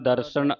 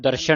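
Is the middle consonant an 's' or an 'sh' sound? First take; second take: s; sh. First: The middle consonant is an 's' sound. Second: The middle consonant is an 'sh' sound. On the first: The speaker calls it right. "ਸੱਸੇ ਦੀ ਆਵਾਜ਼ ਹੀ ਉਚਾਰਨ ਕਰਨੀ ਹੈ" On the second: The speaker calls it wrong. "ਇਹਨੂੰ ਦਰਸ਼ਨ ਨਹੀਂ ਪੜ ਜਾਣਾ"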